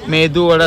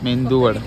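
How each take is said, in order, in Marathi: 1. पहिला स्वर साधा आहे, त्यात अनुनासिक आवाज नाही. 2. पहिला स्वर 'd' च्या आधी अनुनासिक होतो. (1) "मेदू वडा असतो तो" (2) "मेंदू वडा नसतो"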